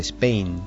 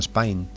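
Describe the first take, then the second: First: The word is said with a classic British accent. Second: The word is said with an Australian accent. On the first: "en el inglés clásico dice Spain" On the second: "los australianos dicen Spain"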